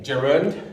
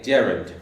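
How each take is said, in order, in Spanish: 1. El acento está en la segunda sílaba. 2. El acento está en la primera sílaba. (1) "en la U, perdón" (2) "y otros en la E"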